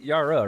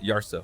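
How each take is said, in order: First: The name is said without an S sound. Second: The name is said with an S sound. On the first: The speaker calls it wrong. "Am I saying that right?" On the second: The speaker calls it right. "or is it Yarsa? Is that S uh, audible?"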